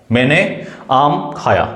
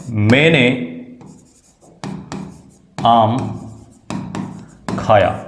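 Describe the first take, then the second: First: Said in the usual way. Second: मैंने आम खाया said word by word with long pauses; slow dictation. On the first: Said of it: "क्या लिखा है बच्चों". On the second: Shown as a demonstration. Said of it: "जैसे मैं यहाँ पे लिखता हूँ". (धीरे-धीरे, एक-एक शब्द रुककर बोलना)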